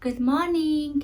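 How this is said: It is said cheerfully, with a smile.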